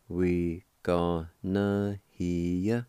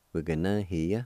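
First: "We gonna hear ya" very slow, each syllable drawn out; slow, measured teaching take of "We gonna hear ya"; slow syllable demonstration. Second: "We're gonna hear ya" run together as one word; natural, unbroken "We're gonna hear ya"; joined-up pronunciation. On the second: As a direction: blend "We're gonna hear ya" at normal speed. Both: Shown as a demonstration. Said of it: "It's pronounced like this".

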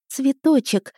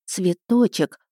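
First: High, glad exclamation «Цветочек!»; joyful. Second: Said in the usual way. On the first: Acted. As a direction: call «Цветочек!» out with a happy smile. (радостно «Цветочек!») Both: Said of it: "я радостно улыбнулась".

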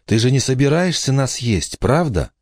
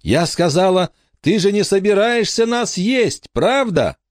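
First: Put-on high child's voice, first asking; raised pitch, moderate force; girl asking warily. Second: Put-on very high, piercing child's demand; high-pitched mock yell to a deaf giant; insistent loud repeat. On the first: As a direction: ask the giant in a high little-girl voice. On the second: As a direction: repeat it insistently at the top of a girl's range. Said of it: "Не так громко".

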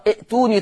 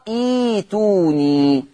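First: ائتوني as i'-tuuni with an audible glottal catch; short first vowel and a stop in ائتوني; hamza pronounced. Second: إيتوني slow and smooth, iii-tuuu-niii; long ee opening إيتوني, no glottal catch; hamza turned to yaa. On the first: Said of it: "فهتقرأ ائتوني تقرأ إيتوني". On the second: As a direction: stretch إيتوني as a reading demo. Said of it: "هكذا". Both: Shown as a demonstration.

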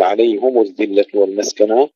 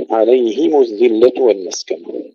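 First: عليهم as "alayhumu", u after h; wrongly rounded ha. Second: عليهم as "alayhimu", i before the rounded m; kasra on ha. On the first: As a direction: mistaken recitation of عليهم with damma on ه. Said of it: "لا نقول". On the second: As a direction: recite عليهم with "hi", then "mu". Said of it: "كسر الهاء". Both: Shown as a demonstration.

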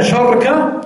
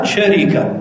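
First: شركة as sharka, the r closed with no vowel; sharka pronunciation. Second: شركة as sharika, sh open and r with a short i; sharika pronunciation. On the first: Teacher contrasting the second form for students, sharka clearly. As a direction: clip شركة into two syllables, shar-ka. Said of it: "وعندنا شركة". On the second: Teacher listing the forms of the word to students, sharika clearly. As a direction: say شركة as sha-ri-ka in three syllables. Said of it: "إذن عندنا شركة". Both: Shown as a demonstration.

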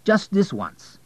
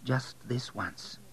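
First: High, urgent plea; eager, higher-pitched appeal; pleading. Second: Slow, soft repetition; soft, drawn-out, wondering repeat; hesitant echo. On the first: Acted. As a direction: coax insistently, pitch raised. Abel pleads for a dinner date. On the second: A narrator's reading. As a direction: echo it slowly and much more softly. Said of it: "she repeated".

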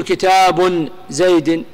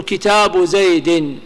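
First: كتاب said with tanween, kitābun zaydin; كتاب with an added final n, the wrong form. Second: كتاب said without tanween, kitābu zaydin; كتاب with no final n sound, the correct annexed form. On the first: Teacher shows students the mistake, كتاب with nunation. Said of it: "ما تقول". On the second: Teacher shows students the correct form, كتاب without nunation. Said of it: "تقول". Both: Shown as a demonstration.

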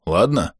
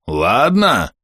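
First: Said in the usual way. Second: Drawn-out, pressing "Ладно"; "Ладно" leaned on slowly, eye to eye; insistent repeat. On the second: A narrator's reading. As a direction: stretch "Ладно" to demand agreement. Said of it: "нагнулся и заглянул мне в глаза".

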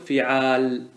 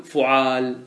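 First: فعال as fi'aal, short i first; kasra on fa. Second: فعال as fu'aal, short u first; damma on fa. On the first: Teacher showing fi'aalah without ta, فعال starting fi-. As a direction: say فعال with an i after the f and no final ta. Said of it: "ايش تقول في فعالة؟". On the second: Teacher showing fu'aalah without ta, فعال starting fu-. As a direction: say فعال with a u after the f and no final ta. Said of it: "ووزن فعال بضم الفاء وفتح العين". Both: Shown as a demonstration.

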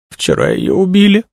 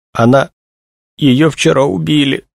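First: Very high crying voice; tearful. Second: High, halting, distressed voice; choked out. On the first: Young woman bursts out about the murder, crying. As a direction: break into a high tearful wail. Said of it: "заплакала Тришина". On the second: Young woman tells of her friend's murder, choking it out. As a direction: force the words out with a pause after the first. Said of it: "выдавила Тришина". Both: A narrator's reading.

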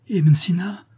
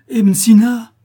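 First: Higher, rising call of the name; first call, still half a question; desperate call. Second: Much higher and louder, a despairing scream of the name; desperate cry. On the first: Young disciple calling his master's name, desperate and higher. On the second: Disciple screaming at his dead master, desperate and much louder. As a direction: cry out as if he already knows. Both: Acted. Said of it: "cria le jeune homme d'une voix désespérée".

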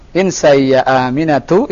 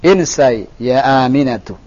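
First: "Insai ya Aminatu" rising on the last syllable; question intonation. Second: "Insai ya Aminatu" falling at the end; command intonation. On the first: Teacher showing the student the mistake, question intonation. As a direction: lift "Aminatu" at the end, as if asking. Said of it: "itu pertanyaan". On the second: Teacher showing the student the right tune, command intonation. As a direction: land "Aminatu" downward as an order. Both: Shown as a demonstration.

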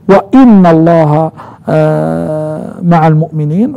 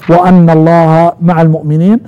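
First: "وإن" with an i, wa-inna, drawn out; reading with inna. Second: "وأن" with an a, wa-anna; reading with anna. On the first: Teacher showing students the first reading, "وإن" as wa-inna. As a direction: recite "وإن" slowly as wa-inna, stressing the i. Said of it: "قرأ ابن كثير وأبو عمرو وحمزة". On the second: Teacher showing students Hafs's reading, "وأن" as wa-anna. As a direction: recite "وأن" as wa-anna, opening on a. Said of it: "وقراءة نافع وابن عامر وحفص". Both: Shown as a demonstration.

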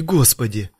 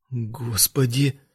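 First: Said in the usual way. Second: Slow, soft desperate prayer; praying. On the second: A narrator's reading. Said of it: "взмолился он".

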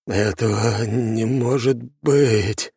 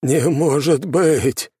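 First: Slow, shaky, disbelieving; quavering in shock; trembling voice. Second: Higher, louder, slow despairing cry. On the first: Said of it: "дрожащим голосом выдал Темус". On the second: Темус despairs at ruined fortress. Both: A narrator's reading.

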